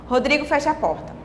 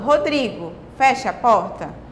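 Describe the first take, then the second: First: It runs on with no pause after Rodrigo. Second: There is a pause after Rodrigo. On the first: "Não seria, uh, não teria a mesma entonação" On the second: "se eu estivesse falando, Rodrigo, fecha a porta"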